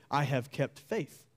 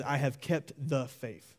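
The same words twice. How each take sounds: First: "I have kept faith" said slowly, without "the"; a slow reading of "kept faith" with no article. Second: "the" in "I have kept the faith" said clearly and slowly; a slow reading that lands on "the"; stress on THE. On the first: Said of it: "you could interpret it in such a way". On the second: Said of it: "with the definite article, the". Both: Shown as a demonstration.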